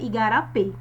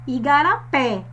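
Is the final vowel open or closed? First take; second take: closed; open. First: The final e is closed. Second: The final e is open.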